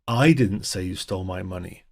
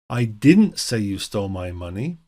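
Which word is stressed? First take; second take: I; didn't. First: The stress is on the word I. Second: The stress is on the word didn't. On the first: Someone else made the accusation. "here we stress the first word, I" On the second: The accusation was never made. "we're really just emphasizing the negative"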